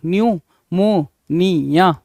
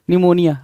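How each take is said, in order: First: न्यूमोनिया very slowly, "nyu - mo - nee - ya"; syllable by syllable. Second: Said in the usual way. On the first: Shown as a demonstration. Teacher sounds out the spelling for students, न्यूमोनिया in slow syllables. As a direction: stretch each syllable of न्यूमोनिया apart.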